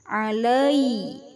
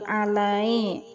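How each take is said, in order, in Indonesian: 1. Vokal terakhir terdengar seperti i. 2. Vokal terakhir terdengar seperti e. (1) "bacaannya i bukan e" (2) "bukan alai"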